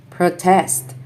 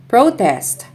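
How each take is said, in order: First: ProTEST, stressed on the second syllable; short pro, strong TEST in protest; verb stress. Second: PROtest, stressed on the first syllable; high PRO in Protest, then fall; noun stress. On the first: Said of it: "verbs are stressed on the second syllable". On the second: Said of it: "nouns are stressed on the first syllable". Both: Shown as a demonstration.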